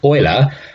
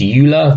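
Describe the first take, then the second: First: The name begins with an 'oy' sound. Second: The name begins with a 'you' sound. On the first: The speaker calls it right. "actually because he was Swiss, it's pronounced Euler" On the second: The speaker calls it wrong. "very common mispronunciation"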